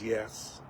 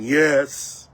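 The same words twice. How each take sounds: First: It is said softly. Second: It is said loudest of all.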